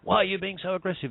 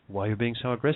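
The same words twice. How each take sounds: First: It sounds accusing and judgmental. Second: It sounds calm and neutral.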